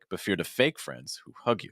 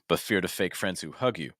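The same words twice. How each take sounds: First: The word fake is stressed. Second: The word fake carries no special stress. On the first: "it's not wrong to put the stress on fake" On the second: "I would consider removing the stress on fake"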